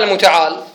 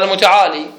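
First: "المتعال" stopped on the l, no ee after it; final yaa dropped. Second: "المتعالي" ending in a long ee; final yaa kept. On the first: Teacher gives students the rejected form, "المتعال" without final ee. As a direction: end "المتعال" on a bare consonant l. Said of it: "مو قال المتعال". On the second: Teacher gives students the majority's form, "المتعالي" with final ee. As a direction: sound the yaa after the l in "المتعالي". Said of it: "أثبتوا الياء". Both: Shown as a demonstration.

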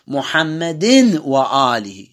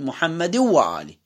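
First: محمد وآله as muhammadin, nun clear, slowed; tanwin pronounced, slow. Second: محمد وآله with no nun, merged into the waw; tanwin dropped. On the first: Teacher demonstrating the wrong form slowly. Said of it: "لا، أقول محمد وآله". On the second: Teacher correcting with the assimilated form. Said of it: "ما لفظت أصلًا". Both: Shown as a demonstration.

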